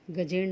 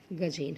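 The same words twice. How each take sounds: First: गजेण with a retroflex ण at the end; teacher reading out the incorrect गजेण; wrong form. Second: गजेन with a plain dental न at the end; teacher giving the corrected गजेन, ending in dental न; correct form. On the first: Teacher shows students the wrong form गजेण, said with retroflex ण. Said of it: "गजेण नहीं होता". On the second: Teacher corrects students: गजेन, with dental न. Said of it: "गजेन होता है". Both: Shown as a demonstration.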